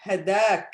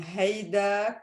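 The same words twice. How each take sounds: First: Syrian-accented hadak, short "ha" opening. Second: Lebanese-accented haydak, slow "hay" opening. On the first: Teacher comparing regional forms for learners, Syrian accent. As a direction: say hadak the Syrian way, without a glide. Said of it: "hadak is more Syrian accent". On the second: Teacher comparing regional forms for learners, Lebanese accent. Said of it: "is Lebanese accent". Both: Shown as a demonstration.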